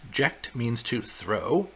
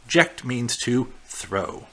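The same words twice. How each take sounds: First: Slow, softer repeat ending on a rise; "Ject" stressed, rising finish. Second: Slow, deliberate statement ending in a fall; "Ject" stressed, falling close; slow teaching emphasis. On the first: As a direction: repeat it slowly so it sinks in. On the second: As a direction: spell it out slowly for the class. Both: Shown as a demonstration.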